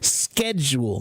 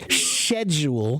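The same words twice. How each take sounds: First: It starts with a k sound, American style. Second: It starts with an sh sound, British style.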